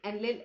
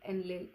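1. शब्द तेज़ गति से बोला गया है। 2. शब्द धीमी गति से बोला गया है। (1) "मैं थोड़ा तेज बोल रही हूँ" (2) "आप स्लो भी बोल सकते हो"

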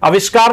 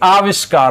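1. पहला स्वर छोटा है। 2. पहला स्वर लंबा है। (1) "आविष्कार नहीं होता" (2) "बल्कि आविष्कार होता है"

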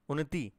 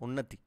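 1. अंतिम स्वर बड़ा और खिंचा हुआ है। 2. अंतिम स्वर छोटा और जल्दी बोला जाता है। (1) "इसको आप थोड़ा सा धीरे पढ़ेंगे" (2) "ये छोटी की मात्रा है"

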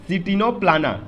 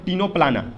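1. शब्द की शुरुआत में बोला जाने वाला अक्षर C है। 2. शब्द सीधे टीनो की आवाज़ से शुरू होता है।

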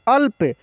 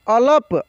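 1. ल सीधे प से जुड़ जाता है, बीच में कोई स्वर नहीं। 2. ल और प के बीच एक छोटा स्वर सुनाई देता है। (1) "ल में से अ हट गया" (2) "अलप नहीं बोलेंगे"

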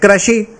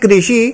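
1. पहले अक्षर में एक क्षेत्रीय स्वर-ध्वनि है। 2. पहले अक्षर में लिखित रि की मात्रा है। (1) "लेकिन इसका उच्चारण लोग करते हैं कृषि" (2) "ये कृषि में जो है ये री की मात्रा लगी हुई है"

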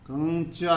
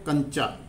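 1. अनुनासिक स्वर लंबा खींचा जाता है। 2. अनुनासिक स्वर छोटा और झटके से बोला जाता है। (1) "कंचा नहीं बोल रहे इसको हम" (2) "तो इसका मतलब अनुस्वार"

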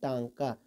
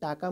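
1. पहला स्वर अनुनासिक है। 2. पहला स्वर सादा है, इसमें अनुनासिकता नहीं है। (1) "उसे टांका कहते हैं।" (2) "टाका मत बोलिएगा"

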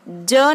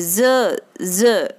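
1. व्यंजन एक साधारण 'j' की आवाज़ है। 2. व्यंजन एक गुंजन वाली 'z' की आवाज़ है। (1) "ज नहीं बोलेंगे" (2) "ये ज के नीचे डोट है"

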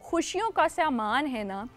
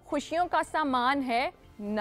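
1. अंतिम शब्द से पहले कोई विराम नहीं है। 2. अंतिम शब्द से पहले विराम है।

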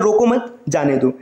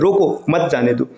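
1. 'mat' के ठीक बाद विराम है। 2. 'roko' के ठीक बाद विराम है। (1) "इसका अर्थ है ना कि रोकना नहीं है, उसे जाने देना है" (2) "उसे रोकना है, उसे जाने नहीं देना है"

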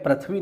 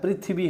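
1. पहला अक्षर 'pra' की तरह बोला जाता है। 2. पहला अक्षर 'pri' की तरह बोला जाता है। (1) "एक्चुअल में पृथ्वी नहीं होता है" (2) "पृथ्वी होता है"

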